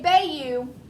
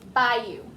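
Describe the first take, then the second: First: The word is sounded out the way it is spelled. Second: The word is said differently from its spelling. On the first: The speaker calls it wrong. "you don't say bayou" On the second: The speaker calls it right. "you say bayou"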